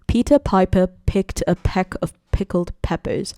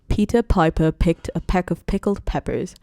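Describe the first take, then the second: First: The P sounds pop with harsh bursts of air. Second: The P sounds are soft without bursts of air. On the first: The speaker calls it wrong. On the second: The speaker calls it right.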